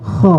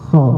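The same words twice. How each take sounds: First: The throat sound is harsh, like snoring. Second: The throat sound is light, not snoring.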